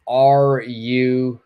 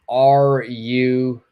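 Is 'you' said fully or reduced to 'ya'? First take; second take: full; full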